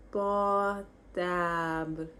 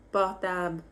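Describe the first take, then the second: First: "Portable" stretched out very slowly, syllable by syllable. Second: Said in the usual way. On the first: Shown as a demonstration. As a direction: draw out "Portable" for learners. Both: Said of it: "how to say phone".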